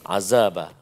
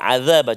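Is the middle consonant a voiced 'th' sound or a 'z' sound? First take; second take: z; th. First: The middle consonant is a 'z' sound. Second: The middle consonant is a voiced 'th' sound. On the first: The speaker calls it wrong. "huruf zai" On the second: The speaker calls it right. "patutnya huruf dhal"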